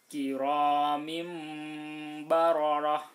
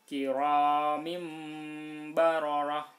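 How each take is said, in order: Both takes have the same delivery.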